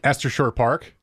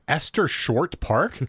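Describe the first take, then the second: First: The T at the end of Short is dropped. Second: The T at the end of Short is pronounced. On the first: This is how local people say it. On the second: This is the name as written on the map.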